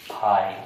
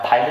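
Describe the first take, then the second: First: "फाइल" ending on the l, pitched lower; silent final e. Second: "फाइल" misread as fai-le, with an e after the l; wrong reading with final e. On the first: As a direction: say "फाइल" low, with no e after the l. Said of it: "क्या पढ़ेंगे?". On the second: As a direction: add a clear e to the end of "फाइल". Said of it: "फाइल नहीं पढ़ेंगे हम". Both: Shown as a demonstration.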